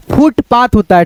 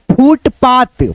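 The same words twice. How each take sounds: First: The mistaken फुटपाथ to avoid; wrong version. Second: फुटपाथ said syllable by syllable, clearly; careful reading. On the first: Teacher showing the wrong way to say it. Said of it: "फुटपाथ नहीं होता है". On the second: Teacher modelling a word for beginners. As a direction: read फुटपाथ out slowly for a student. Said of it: "पा यहाँ पे रहेगा त". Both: Shown as a demonstration.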